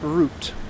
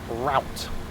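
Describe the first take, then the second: First: The vowel sounds like the one in boot. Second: The vowel sounds like the one in out. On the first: "We spell it R O U T E, pronounce it R O O T" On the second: "Americans call it route"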